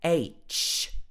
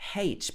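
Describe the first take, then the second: First: The letter name starts with a vowel sound. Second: The letter name starts with an h sound. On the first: The speaker calls it right. "strictly speaking, this should be H, A, then Ch" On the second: The speaker calls it wrong. "Some people would say H"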